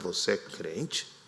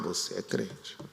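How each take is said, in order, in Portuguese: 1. Soa surpreso e descrente. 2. Soa caloroso e aprovador. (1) "Agora o contrário" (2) "com outro tom de voz, com outra ênfase"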